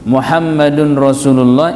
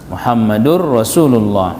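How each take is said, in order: First: A clear n sound ends Muhammadun. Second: The n merges into the following r sound. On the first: The speaker calls it wrong. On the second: The speaker calls it right.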